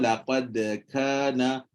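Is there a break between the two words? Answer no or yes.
no. The two words flow together without a break. The speaker calls it right. "okey nombor dua lah tu betul ya Ustaz"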